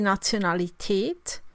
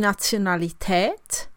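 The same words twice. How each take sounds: First: The last vowel is a long closed e. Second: The last vowel is a long open e. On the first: "langes, geschlossenes E" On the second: "langes, offenes E"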